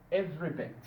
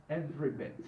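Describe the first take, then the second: No difference in how they are said.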